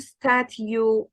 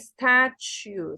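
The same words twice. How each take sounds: First: The t is plain with no sh sound. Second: A slight sh sound follows the t. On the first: The speaker calls it wrong. "مش بقول statue" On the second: The speaker calls it right. "a slight sh between them"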